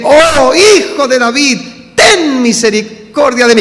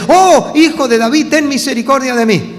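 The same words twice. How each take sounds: First: Loud, high clamour for mercy; acted shout. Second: Raised, higher-pitched mock cry for mercy; imitated plea. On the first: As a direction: cry out to be heard, stretching the words. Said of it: "mira que yo grité". (clamor a gritos, actuado) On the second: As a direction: call out a blind beggar's plea, not at full force. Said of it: "Entonces grita". (súplica imitada en voz alta, sin llegar al grito)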